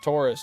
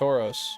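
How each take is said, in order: First: It sounds like the zodiac sign Taurus. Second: It sounds different from the zodiac sign Taurus. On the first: The speaker calls it wrong. "Keep wanting to say Taurus. It's not Taurus" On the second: The speaker calls it right. "it's Tauros"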